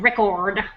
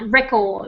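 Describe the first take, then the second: First: The R after the vowel is pronounced. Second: The R after the vowel is dropped. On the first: "instead of record" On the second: "And like record"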